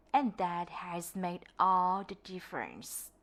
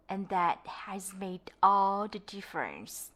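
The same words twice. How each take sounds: The two takes are said the same way.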